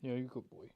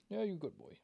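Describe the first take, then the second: First: Hushed, tender praise to the pet; soft dog praise. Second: Much higher, soft sing-song dog talk; high doggy voice. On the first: Owner quietly praising his old dog Buster. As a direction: murmur praise softly to the dog. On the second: Owner cooing high-pitched praise at Buster. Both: Real, not acted.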